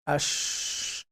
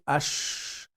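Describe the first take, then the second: First: The sh sound is made with rounded lips. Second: The same.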